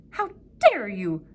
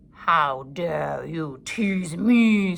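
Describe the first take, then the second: First: Snarled. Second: Very slow, loud snarl; snarling wolf. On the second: Wolf snapping at the bird, slow loud snarl. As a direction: snarl it with menace. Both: A narrator's reading. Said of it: "snarled the wolf".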